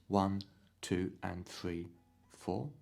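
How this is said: The 'and' falls exactly between the beats.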